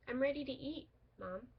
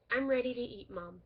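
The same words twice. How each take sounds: First: "I'm ready to eat," then a short pause before "Mom". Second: "I'm ready to eat, Mom" run straight through with no break before "Mom"; no pause. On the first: Teacher showing a comma, pause before Mom. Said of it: "The second sentence says". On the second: Teacher showing a sentence without a comma, no pause. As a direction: say it in one breath. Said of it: "does not use a comma". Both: Shown as a demonstration.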